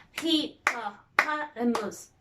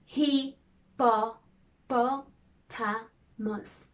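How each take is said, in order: First: Said in the usual way. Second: Hippopotamus stretched very slowly, syllable by syllable; hand-tip syllables. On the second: Shown as a demonstration. Teacher tapping syllables for the class, very slowly. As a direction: drag out every part of hippopotamus. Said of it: "Now let's do the hand tip".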